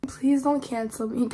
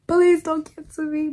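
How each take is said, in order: First: Said in the usual way. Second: Higher, louder playful begging; hammed-up plea not to be cancelled; mock pleading. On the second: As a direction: beg the audience in mock panic.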